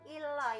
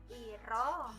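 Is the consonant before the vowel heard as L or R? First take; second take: L; R. First: The consonant is held as L before the vowel. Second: The consonant links to the vowel as R. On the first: The speaker calls it wrong. "bukan ilo ya" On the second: The speaker calls it right. "Jadi ini bacanya iro"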